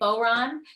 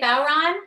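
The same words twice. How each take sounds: First: The first syllable has a different, American-style vowel. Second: The first syllable sounds like 'bow' in 'take a bow'. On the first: "that's like kind of the uh, American version" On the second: "like Ron, take a bow"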